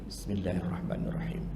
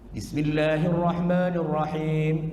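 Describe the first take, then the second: First: The phrase is said quietly, almost under the breath. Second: The phrase is said loudly and clearly aloud. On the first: It follows the school that recites this line silently. "kalau Hambali Bismillah dibaca tapi sir. Jadi As-Sudais itu bacanya gini" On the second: It follows the school that recites this line aloud. "Syafi'i itu Bismillah jahar"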